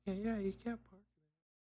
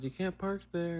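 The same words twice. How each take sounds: First: High, slow, softened mock yell; retold echoing yell. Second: Mild mock yell, pitched up; retold yell. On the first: Companion backs up the dreamer, softly imitated yell. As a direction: imitate a second person calling out, held back. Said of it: "someone else also yelled". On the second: Dreamer retells telling off a driver, mild mock yell. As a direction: imitate calling out, without the volume. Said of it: "I just yelled".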